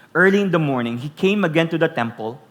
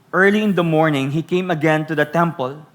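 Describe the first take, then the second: Both takes have the same delivery.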